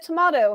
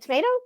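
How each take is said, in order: First: Tomato is said in an Australian accent. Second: Tomato is said in an American accent. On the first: "he would say, you know, "Hand me a tomato,"" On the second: "and I'd be like, "Tomato?""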